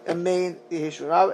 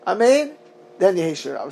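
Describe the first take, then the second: First: Amen runs straight into the next words. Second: There is a short pause after Amen.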